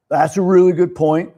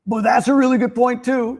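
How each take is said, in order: First: Agreeable. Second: Much higher, brighter second "really good point too"; agreeing with both sides. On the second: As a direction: swing up high on "really" to agree with everyone. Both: Retold or imitated. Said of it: "I'm that guy, like".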